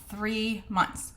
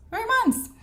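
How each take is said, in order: First: Said in the usual way. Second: High-pitched, louder exclamation of disbelief; incredulous repeat. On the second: Real, not acted. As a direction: jump way up in pitch, aghast at the wait. Repeats the booking wait in disbelief.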